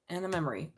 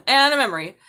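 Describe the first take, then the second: First: Said in the usual way. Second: Laughing. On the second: Real, not acted. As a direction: repeat it higher and louder through a laugh. Repeat with laugh, louder.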